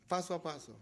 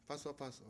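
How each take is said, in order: First: Said in the usual way. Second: Quieter repeat of "paso a paso"; hushed "paso a paso"; soft echo. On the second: Real, not acted.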